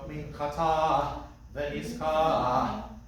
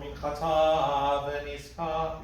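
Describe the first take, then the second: First: The word endings finish with a breathy puff. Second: The word endings finish without a breathy puff. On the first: The speaker calls it right. "an aspirated hey" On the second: The speaker calls it wrong. "we're not looking for"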